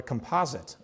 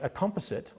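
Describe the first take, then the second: First: It is said with an American pronunciation. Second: It is said with a non-American pronunciation.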